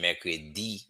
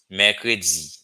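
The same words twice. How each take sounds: First: The d is a plain English-like d sound. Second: The d has a z-like buzz after it. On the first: The speaker sounds like a foreigner. The speaker calls it wrong. "it would be the American accent or British" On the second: The speaker sounds like a native. The speaker calls it right. "it would be better to say mercredi"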